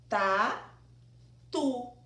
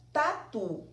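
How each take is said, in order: First: "Tatu" said slowly in two clear syllables, TA-TU; syllables split. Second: Said in the usual way. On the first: Shown as a demonstration. Teacher showing the children the syllables, "Tatu" in two beats. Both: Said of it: "abri a boca duas vezes".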